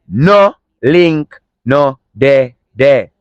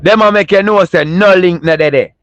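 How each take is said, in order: First: "No link no dey there" said slowly, word by word; slow Jamaican patois repeat; slow patois demo. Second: Jamaican patois line said with a lift; patois demo. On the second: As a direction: show how to chat patois. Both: Shown as a demonstration. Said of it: "I'm gonna say how to chat patois".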